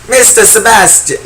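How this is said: It is said in a country-style female voice. "maybe she's kind of country-ish"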